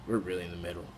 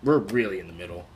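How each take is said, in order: First: Said again, much softer and lower; soft reflective echo; softer repeat. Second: Said in the usual way. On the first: Real, not acted. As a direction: let the repeat sink in quietly.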